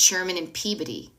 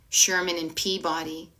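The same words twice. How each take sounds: First: Peabody is pronounced the local way. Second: Peabody is pronounced the outsider way. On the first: The speaker calls it right. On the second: The speaker calls it wrong. "It's not like"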